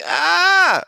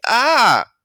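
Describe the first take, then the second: First: High shrill yelp of fright; kid's frightened "Ah!" scream; retold scared scream. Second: A small demonstrative "Ah!", not a real scream; boy insisting it was only an "Ah"; mild mock yelp. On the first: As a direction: shriek like you just saw a monster. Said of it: "I was like". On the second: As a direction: play it down, just a little cry. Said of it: "I was just like".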